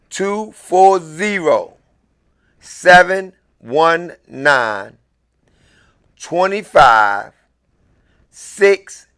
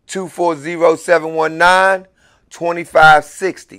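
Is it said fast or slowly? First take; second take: slowly; fast. First: The number is said slowly. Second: The number is said at normal, faster speed.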